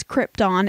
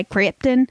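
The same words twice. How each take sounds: First: Krypton with a full "tahn" ending; proper pronunciation. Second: Krypton with a reduced "tun" ending; locals' pronunciation. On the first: Host correcting the locals' version, full-vowel Krypton. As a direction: give Krypton an open "ah" in the second syllable. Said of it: "if people could pronounce things properly". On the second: Host showing how locals say the town's name, reduced-ending Krypton. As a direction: say Krypton with the second vowel swallowed. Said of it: "the locals actually say". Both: Shown as a demonstration.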